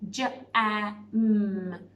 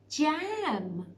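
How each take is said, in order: First: Each sound is said separately with gaps. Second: The sounds are blended into one smooth word.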